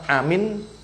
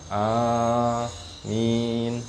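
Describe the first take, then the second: First: The vowels are said short, not drawn out. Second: Both vowels are drawn out long. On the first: It means safe or trustworthy instead. The speaker calls it wrong. "Nek dibaca amin, aman" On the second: A plea for God to answer the prayer. The speaker calls it right. "A panjang, min panjang"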